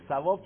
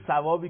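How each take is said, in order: First: "ثواب" with tongue between teeth at the start; Arabic th and rounded w in "ثواب"; correct Arabic thawab. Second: "ثوابی" the Persian way, s for ث; plain Persian s opening "ثوابی"; Persian savab. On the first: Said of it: "تو عربی ثواب درسته". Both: Shown as a demonstration.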